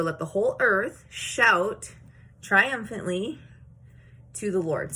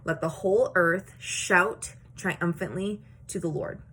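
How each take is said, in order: First: "triumphantly" stretched slow and rising, louder; emphatic recitation. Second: Said in the usual way. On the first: Shown as a demonstration. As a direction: proclaim it with "shout" and "triumphantly" drawn out. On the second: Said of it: "verse one says".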